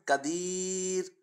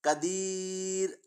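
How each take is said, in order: Both takes have the same delivery.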